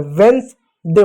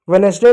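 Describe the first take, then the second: First: वेडनेसडे as vens-day; two-syllable Wednesday. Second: वेडनेसडे said ve-nes-day; three-syllable misreading. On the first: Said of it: "वेडनेसडे होता है". (दो हिस्सों में "वेडनेसडे") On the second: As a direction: keep the middle vowel in वेडनेसडे. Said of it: "नहीं होता है". (तीन हिस्सों में "वेडनेसडे") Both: Shown as a demonstration.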